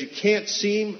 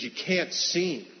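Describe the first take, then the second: First: Higher, louder, insistent no; raised refusal. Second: Slow, firm no from the mother; firm refusal. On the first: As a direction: push "can't" up hard, this time insisting. Mother refuses him again. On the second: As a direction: lay down the law slowly, "can't" held. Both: Retold or imitated.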